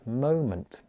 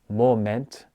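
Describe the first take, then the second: First: The last syllable has a reduced schwa vowel. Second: The last syllable has a full 'eh' vowel. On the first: The speaker calls it right. "I'm using a schwa sound" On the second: The speaker calls it wrong. "I'm not saying moment"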